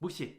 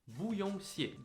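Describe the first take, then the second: First: It is said fast, with the parts run together. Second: It is said slowly, with each part clear.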